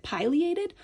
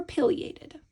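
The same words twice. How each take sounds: First: Pileated as "PIE-lee-ay-tid"; long-i pileated. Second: Pileated as "PILL-ee-ay-tid"; short-i pileated. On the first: Teacher asking which pronunciation is correct, long-i pileated. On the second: Teacher asking which pronunciation is correct, short-i pileated. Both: Shown as a demonstration. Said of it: "one of these pronunciations is actually correct".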